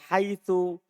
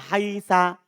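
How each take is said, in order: First: The word ends with an u vowel. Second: The word ends with an a vowel. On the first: "biddom dengan dibaca dhammah" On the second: "bil fathi"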